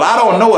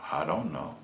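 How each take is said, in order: First: Much higher and louder, stress on know; mocking emphasis. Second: Small, much softer, lower mumble; standing naked before his Maker, a tiny ashamed answer; sheepish answer. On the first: Shown as a demonstration. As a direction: throw the words back scornfully. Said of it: "is not a good answer". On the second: Retold or imitated. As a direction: mumble it like a caught child. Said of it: "the only thing I can say is".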